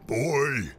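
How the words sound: It is said in a put-on character voice.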